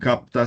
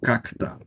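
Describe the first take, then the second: First: A p sound comes before the t. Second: A k sound comes before the t. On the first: The speaker calls it right. "Estoy leyendo la P" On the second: The speaker calls it wrong. "cambian una letra por otra"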